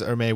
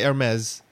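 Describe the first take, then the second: First: The final S sound is silent. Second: The final S sound is pronounced. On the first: "Jaren says Hermes" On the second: "me and Dave say Hermes"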